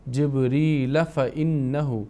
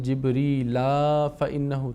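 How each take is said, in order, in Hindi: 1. 'fa' से पहले का स्वर छोटा और जुड़ा हुआ है। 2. 'fa' से पहले का स्वर लंबा खिंचा हुआ है। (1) "बीच में आवाज़ को ढीला नहीं करना है" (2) "ढीला कर दिया, लंबा कर दिए आवाज़ को, तो गलती होगी"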